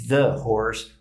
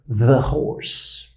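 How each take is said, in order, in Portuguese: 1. O 'th' soa como d. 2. O 'th' soa como z, com a língua entre os dentes. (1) "E não" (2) "um certo som de Z com uma língua entre os dentes"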